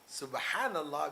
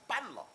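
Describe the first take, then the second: First: It is said carefully and clearly. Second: It is said hurriedly and clipped.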